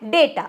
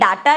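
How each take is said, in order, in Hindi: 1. पहला स्वर एक 'ay' ध्वनि है। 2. पहला स्वर एक खुला 'ah' ध्वनि है। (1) "इसको हम बोलते हैं डेटा" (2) "ये डाटा नहीं होता"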